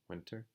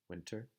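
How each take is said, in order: First: The T is pronounced clearly and strongly. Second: The T is pronounced clearly and strongly.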